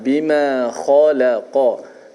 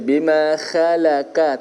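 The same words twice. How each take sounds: First: The kh sound is thick and heavy. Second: The kh sound is thin and light. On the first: The speaker calls it right. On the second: The speaker calls it wrong.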